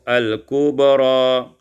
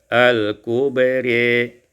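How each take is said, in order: First: The final vowel is a clear a. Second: The final vowel leans toward i.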